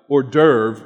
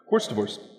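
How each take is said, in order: First: The word is said the usual French way. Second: The word sounds like 'horse divorce'. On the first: "So he doesn't understand how to pronounce them" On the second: "he'll say horse divorce"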